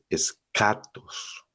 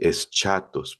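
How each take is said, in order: First: The middle consonant sounds like 'k'. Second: The middle consonant sounds like 'ch'. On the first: The speaker calls it right. "pero no, no, en griego es escatos" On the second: The speaker calls it wrong. "a como está escrito, ahí en medio con la C y la H, a- la gente a veces dice eschatos"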